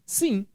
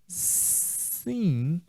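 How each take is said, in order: First: It is said firmly and with certainty. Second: It is said hesitantly, without firmness. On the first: Yes, the homework is done. "ele fez a tarefa" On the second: The answer is probably not really yes. "Essa entonação não traz segurança, não traz firmeza, não traz certeza"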